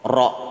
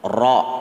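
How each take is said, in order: Both takes have the same delivery.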